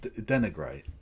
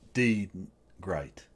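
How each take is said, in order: First: The word is said smoothly as one unit. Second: The word is split after the first syllable. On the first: The speaker calls it right. "it's just denigrate" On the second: The speaker calls it wrong. "Not D great"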